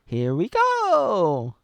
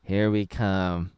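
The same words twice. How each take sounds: First: Slow, loud, high drawn-out cheer; Mario sixty-four imitation. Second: Slow, lower, unexcited "Here we come"; mock the movie line as a dull shrug; flat Chris Pratt delivery. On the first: Fan showing how Mario sounded in the sixty-four game, high loud drawn-out cheer. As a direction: belt "Here we go" like the classic game plumber. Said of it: "he says". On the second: Fan mocking the new movie Mario's line, slow flat deadpan. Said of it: "But instead he's like".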